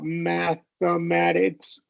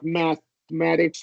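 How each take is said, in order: First: A short schwa vowel separates th and m. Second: A short held stop separates th and m. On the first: "do the Schwab mathematics" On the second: "do like a stop T H... hold it for a second"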